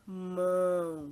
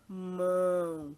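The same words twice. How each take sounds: First: The vowel resonates freely through the nose and mouth. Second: The same.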